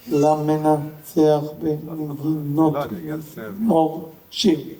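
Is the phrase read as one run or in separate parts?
separate parts. Each part is read separately with breaks. The speaker calls it right. "לקרוא את כל קנה בנפרד"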